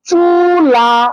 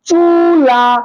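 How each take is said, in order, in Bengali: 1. শব্দটি 'a' স্বরধ্বনি দিয়ে শেষ হয়। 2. শব্দটি 'a' স্বরধ্বনি দিয়ে শেষ হয়।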